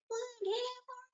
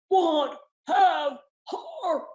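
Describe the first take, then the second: First: It is said in a small baby bear voice. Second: It is said in a deep Papa Bear voice.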